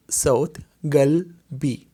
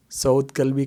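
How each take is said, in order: First: "गल्बी" said slowly with a clear g sound, never k; correct pronunciation, slow. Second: "गल्बी" said wrongly as "कल्बी" with a hard k; wrong pronunciation demo. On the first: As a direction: carefully articulate "सौत गल्बी" with a g. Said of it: "समझ के बोलना है". ("गल्बी" धीरे और साफ़ ग के साथ) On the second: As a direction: demonstrate the mistake, "कल्बी" with a k sound. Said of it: "कल्ब नहीं पढ़ना इसको". (ग़लत उच्चारण "कल्बी" क की आवाज़ के साथ) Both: Shown as a demonstration.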